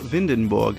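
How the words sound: The name is pronounced the German way. "or do you say it in German"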